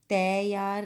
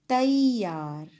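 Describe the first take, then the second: First: The first vowel is a flat 'ae' sound. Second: The first vowel glides like 'aa-ee'. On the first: The speaker calls it wrong. "तैयार नहीं बोलेंगे" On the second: The speaker calls it right. "उस ए मात्रा की ध्वनि बदलकर आई हो जाती है"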